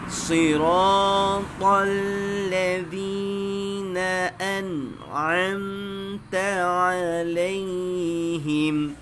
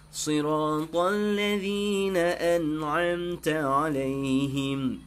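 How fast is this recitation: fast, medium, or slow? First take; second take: slow; medium. First: It is recited slowly, sound by sound. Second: It is recited at a moderate pace. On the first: It is for learning to check each letter's articulation. "Tahqiq baca baik seekor-seekor" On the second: It is for leading the prayer. "Ah ni rubab tadwir"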